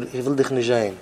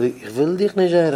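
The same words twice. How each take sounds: First: Said in the usual way. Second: "ich will dich nicht sehen" with a swelling rise on DICH, then falling; emphatic retelling. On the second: Retold or imitated. Speaker retells a refusal, emphatic swell on "dich". Quote said two ways.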